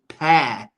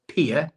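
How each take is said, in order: First: The vowel sounds like the word air. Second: The vowel sounds like the word ear. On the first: The speaker calls it right. "but actually it's pear" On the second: The speaker calls it wrong. "should be peer"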